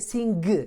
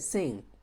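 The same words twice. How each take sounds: First: The word does not end in a pure ng. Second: The word ends in a pure ng sound. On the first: The speaker calls it wrong. "You don't exactly say sing" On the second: The speaker calls it right. "You have to say sing"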